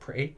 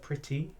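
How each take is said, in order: First: The t sounds are softened and slurred together. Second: Every letter is pronounced, with crisp t sounds. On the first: The speaker calls it wrong. "not pretty" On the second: The speaker calls it right. "Use all my, um, all the letters that were in that word"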